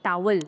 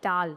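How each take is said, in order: First: Towel is said with a w sound. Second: Towel is said without a w sound. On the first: The speaker calls it wrong. "ना कि टावल" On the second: The speaker calls it right. "डब्ल्यू वाली sound silent है"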